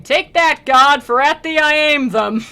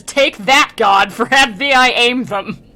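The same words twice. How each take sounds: First: Loud, high defiant shout at the heavens; a thief's loud, high taunt; defiant cry. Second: Loud, mocking shout at God; retelling the thief's loud taunt; defiant taunt. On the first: A narrator's reading. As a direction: hurl it up at God, loud and high. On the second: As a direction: fling the words at God, loud. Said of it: "and says".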